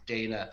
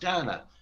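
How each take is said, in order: First: The name is said the non-Irish way. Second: The name is said the Irish way. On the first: "the pronunciation that you, you use obviously is Dana" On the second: "growing up in Ireland, as I did, it's pronounced Dana in Ireland"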